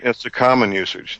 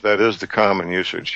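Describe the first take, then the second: First: Said in the usual way. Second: "is" leaned on as the main word; stress on IS. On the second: Real, not acted. Host conceding the caller's point, stress on "is". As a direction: put the weight on "is" to concede the point.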